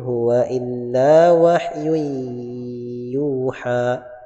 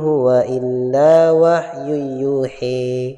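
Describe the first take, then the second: First: The final vowel is a plain open a. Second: The final vowel is tilted toward e. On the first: "Wahyu yuha itu qiraah Hafs an Asim" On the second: "dibaca imalah"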